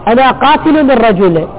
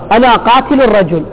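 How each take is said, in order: First: Qatil ends in -u; rajul ends in -i. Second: Qatil ends in -un; rajul ends in -a. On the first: The speaker has already killed the man. "وهذا هو القاتل" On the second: The speaker is threatening to kill the man. "هذا يخلى سبيله"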